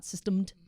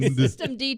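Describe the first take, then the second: First: The word ends with an 'ed' syllable. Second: The word ends with a separate letter D. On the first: The speaker calls it wrong. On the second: The speaker calls it right.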